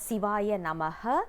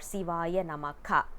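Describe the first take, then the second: First: The last word ends with an extra 'ha' syllable. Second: The last word ends with an extra 'ka' syllable. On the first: "We are not supposed to uh, pronounce it as" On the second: "We are not supposed to uh, pronounce it as"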